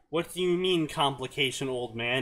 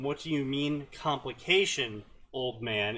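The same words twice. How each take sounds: First: Complication old man runs together like a name. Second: There is a break before old man.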